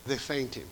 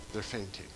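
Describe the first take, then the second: First: Said in the usual way. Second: They're fainting said lower and much softer; quiet, lower echo of They're fainting; softly echoed. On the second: Acted. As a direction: drop They're fainting to a near hush. Repeated softer for effect.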